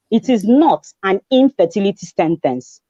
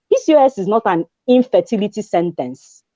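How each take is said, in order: First: "not" leaned on, the whole line slowed; slow, weighty repeat with "not" hit hard; stress on not. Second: Said in the usual way. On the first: Shown as a demonstration. To single women with PCOS, firmly stressing "not". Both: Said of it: "I like to say".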